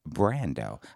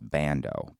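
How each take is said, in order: First: The name is said with an R sound. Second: The name is said without an R sound. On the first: This pronunciation adds flair to the name. "the way I like the flair of Brando" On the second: This is the plain pronunciation that follows the spelling. "if you pronounce it the way it's spelled"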